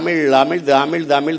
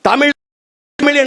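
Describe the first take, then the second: First: Said fast and run together, the t sound disappears. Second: Each word is said separately with a clear t.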